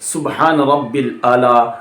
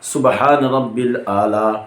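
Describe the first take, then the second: No difference in how they are said.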